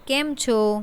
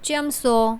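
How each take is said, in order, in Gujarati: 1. તે 'k' થી શરૂ થાય છે અને 'chho' પર પૂરું થાય છે. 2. તે 'ch' થી શરૂ થાય છે અને 'so' પર પૂરું થાય છે. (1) "શુદ્ધ ગુજરાતીમાં" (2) "સ્થાનિક બોલીમાં"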